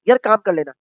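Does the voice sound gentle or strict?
strict. The tone is harsh, angry and strict. "गुस्सापन या एक लहजे में जो है सख्त सख्ती"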